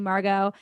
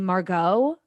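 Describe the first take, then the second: First: The name falls at the end, like a statement. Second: The name rises at the end, like a question. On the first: It is the speaker's real name. The speaker calls it right. "That's my name" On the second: It is how coworkers mispronounced the name. The speaker calls it wrong. "like it was a question"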